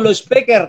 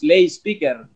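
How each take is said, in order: First: The first word has an 'o' vowel, 'lo'. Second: The first word has an 'ay' vowel, 'lay'. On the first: The speaker calls it wrong. "di bahasa Batak di kampung kami disebut lo speaker" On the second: The speaker calls it right. "karena nggak tahu mempronounce lay speaker"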